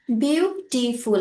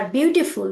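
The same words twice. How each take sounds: First: বিউটিফুল slowly in three separate parts, বিউ, টি, ফুল; teacher sounding out বিউটিফুল syllable by syllable; split into syllables. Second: Said in the usual way. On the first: Shown as a demonstration. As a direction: break বিউটিফুল into three slow beats with small gaps. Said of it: "আমরা তিনটা part করলাম". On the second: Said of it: "বিউটিফুলকে আমরা তিন ভাগে ভাগ করলাম".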